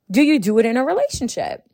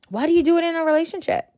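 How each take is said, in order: First: Said in the usual way. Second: Higher and faster, pressing the question again; exasperated repeat. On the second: Real, not acted. Repeating the question to listeners, higher and exasperated. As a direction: fire it back at them, incredulous.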